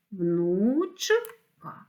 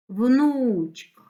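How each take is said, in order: First: "внучка" in two drawn-out parts, внуч-ка; split into syllables. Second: Said in the usual way. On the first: Shown as a demonstration. Teacher dividing a word for pupils, "внучка" syllable by syllable. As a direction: break "внучка" with a clear gap: внуч, ка. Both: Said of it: "слова на склади".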